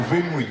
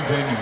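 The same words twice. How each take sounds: First: "venue" mangled into ven-weh; mispronounced venue. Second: Said in the usual way. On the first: Retold or imitated. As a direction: say "venue" as VEN-way, not VEN-you. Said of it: "you mean venue?". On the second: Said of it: "No, venue".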